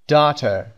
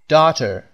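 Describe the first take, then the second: Both takes have the same delivery.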